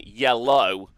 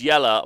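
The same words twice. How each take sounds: First: "yellow" said with a full final oh; standard "yellow". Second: "Yeller" ending in a loose uh, like shouter; slang "Yeller". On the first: Explaining to podcast listeners how it isn't written, "yellow" with full oh ending. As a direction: end "yellow" on a clear, rounded oh. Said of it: "isn't written yellow". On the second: Explaining the clan name to podcast listeners, "Yeller" ending like shouter. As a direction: say "Yeller" as one who yells. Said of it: "It's written as Yeller, like a shouter". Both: Shown as a demonstration.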